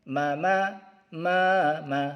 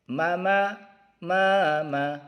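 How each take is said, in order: The two takes are said the same way.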